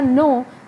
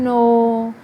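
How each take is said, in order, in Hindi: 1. शब्द सामान्य पिच में कहा गया है। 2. शब्द पिच नीचे गिराकर कहा गया है। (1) "ये एक नॉर्मल मैंने बोला, मेरी पिच जो थी वो नॉर्मल" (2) "अब फॉल हुई, और मेरी पिच नीचे गिरी"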